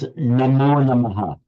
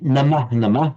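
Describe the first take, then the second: First: The first word ends in an o sound. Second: The first word ends in an ah sound. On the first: The speaker calls it right. "it becomes" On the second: The speaker calls it wrong. "you don't say"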